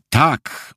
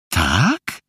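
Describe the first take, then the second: First: „Tak” as a short, firm reply; TAK as an answer. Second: „Tak” with a questioning rise; pytające TAK. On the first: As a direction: answer „Tak” as a statement, without questioning. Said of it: "odpowiedział Felek". („Tak” krótko, twierdząco) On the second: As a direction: ask „Tak” as a drawn-out challenge, voice going up. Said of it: "zapytała Marysia". („Tak” pytająco, z intonacją wznoszącą) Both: A narrator's reading.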